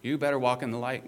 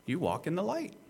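First: Brisk, firm command; pressing admonishment at a fast clip; imperative. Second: Lifted, easy affirmation; higher, unforced assurance; statement of fact. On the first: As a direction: order it as a quick warning. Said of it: "if you want the imperative". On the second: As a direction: state it as who they already are, pitch rising at the end. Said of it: "I'm emphasizing here, you do". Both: Shown as a demonstration.

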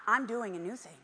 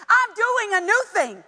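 First: Said in the usual way. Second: "I'm doing a new thing!" said higher and louder, stress on I'm; with exclamation mark. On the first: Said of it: "it's not". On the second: Shown as a demonstration. Preacher showing the congregation the exclamation, loud and high. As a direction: proclaim it, punching "I'm". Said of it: "Exclamation mark".

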